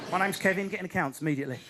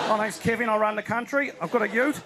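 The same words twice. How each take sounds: First: Mock accountant, lower pitch; British office Kevin. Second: Relaxed mock Australian accent; lightly hammed-up Australian bloke; Australian impression. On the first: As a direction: dull British accounts clerk act. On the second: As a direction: put on an easygoing Aussie accent. Mimics relaxed Australian leader.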